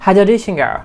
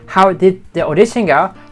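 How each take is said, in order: First: How and did blend into one short 'how'd'. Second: How and did are said as separate full words. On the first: The speaker calls it right. "She says, how did the audition go?" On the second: The speaker calls it wrong. "Not how did the audition go?"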